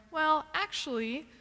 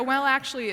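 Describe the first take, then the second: First: Drawn-out, higher "well, actually"; pedantic correction. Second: Said in the usual way. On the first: Acted. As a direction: slowly start a know-it-all correction, rising at the end. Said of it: "when you catch yourself going".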